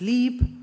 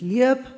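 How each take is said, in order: First: The vowel is a single long i. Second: The vowel is a gliding diphthong ie. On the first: This is the standard or Rhine Franconian-Hessian form. "Auch im Rheinfränkisch-Hessischen spricht man diese einzelnen Vokale" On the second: This is the older or East Franconian form. "Die wurden im Mittelhochdeutschen auch noch so ausgesprochen"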